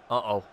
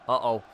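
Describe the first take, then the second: No difference in how they are said.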